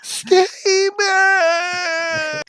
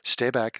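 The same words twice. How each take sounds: First: It is said forcefully and aggressively. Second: It is said calmly and maturely.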